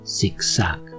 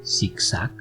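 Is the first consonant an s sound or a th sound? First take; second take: s sound; s sound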